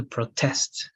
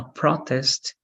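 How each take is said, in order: First: "protest" as a verb, TEST stressed; stress on second syllable. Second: "protest" as a noun, PRO stressed; stress on first syllable. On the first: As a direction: put the weight on TEST in "protest". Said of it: "and that's a verb". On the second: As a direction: put the weight on PRO in "protest". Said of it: "Protest is a noun". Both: Shown as a demonstration.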